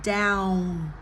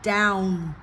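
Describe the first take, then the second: No difference in how they are said.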